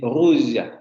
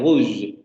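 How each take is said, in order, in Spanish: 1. La palabra termina en una vocal débil y tenue. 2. La palabra termina en consonante, sin vocal. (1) "dicen rouge" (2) "no dicen eh, rouge"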